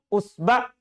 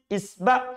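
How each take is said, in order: First: The word begins with a u vowel. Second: The word begins with an i vowel. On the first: "Bisa juga di domah" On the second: "Hamzanya itu bisa di kasro"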